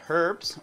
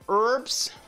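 First: It is said in a British accent. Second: It is said in an American accent.

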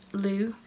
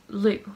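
First: The syllable is said with a rising pitch. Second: The syllable is said with a sharply falling pitch. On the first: The word means donkey. "Lu with second tone, that means donkey" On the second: The word means green. "lu with fourth tone, that means green"

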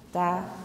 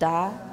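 First: The consonant is voiceless with no breath puff. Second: The consonant is fully voiced before the vowel.

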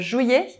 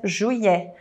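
First: The final vowel is said closed. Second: The final vowel is said open. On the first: "Existe a pronúncia juillet"

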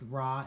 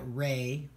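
First: The name ends with an 'ah' vowel. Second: The name ends with an 'ay' vowel. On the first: "you'll hear both Ra and Re" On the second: "Some people pronounce that Re"

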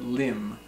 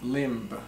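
First: The final b sound is silent. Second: The final b sound is pronounced. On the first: The speaker calls it right. "but limb" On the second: The speaker calls it wrong. "It's not limb"

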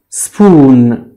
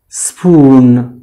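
Both takes have the same delivery.

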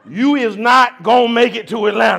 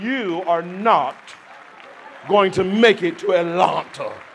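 First: It is said in a rural Southern country manner. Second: It is said in a formal educated manner. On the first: The speaker is showing a rural upbringing. "I said it that way because that's the country in me" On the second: The speaker is acting as if well educated. "let me act like I got some education"

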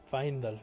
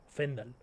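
First: The 'a' and 'e' are said as separate vowels. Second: The 'ae' is said as a single e sound. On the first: The speaker calls it right. "sí es Faendal" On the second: The speaker calls it wrong. "Porque la A y la E se pronuncia como una E"

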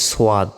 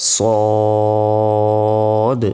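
First: The vowel has a w-like glide before it. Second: The vowel is plain with no glide before it. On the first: The speaker calls it wrong. "আমরা অনেকে বলি সোয়াদ, এটা ভুল" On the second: The speaker calls it right. "উচ্চারণটা হবে সদ সদ"

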